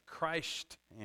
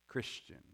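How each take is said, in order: First: The first syllable is a full, stressed 'Christ'. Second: The first syllable is reduced, said 'Chris-chun'.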